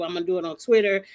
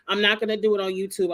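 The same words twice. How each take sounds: First: Twitter hit with a firm falling push; fast, land on Twitter; stress on Twitter. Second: YouTube said with a falling, firm push; stress on YouTube. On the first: Telling viewers to catch the live on Twitter, stress on Twitter. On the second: Telling viewers where the live stream won't be, stress on YouTube. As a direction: lean on YouTube, quick. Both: Real, not acted.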